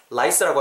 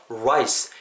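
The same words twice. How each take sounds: First: "rice" as Korean 라이스, with no lip rounding; wrong Korean rice. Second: "rice" started from silently rounded oo lips. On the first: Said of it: "rice라고 하시면 안 되는". ("rice"를 한국식 '라이스'로) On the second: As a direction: pucker first, then say "rice" with an English r. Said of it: "약간 우 발음을 미리". ("rice"를 입술 둥글게 '(우)라이스'로) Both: Shown as a demonstration.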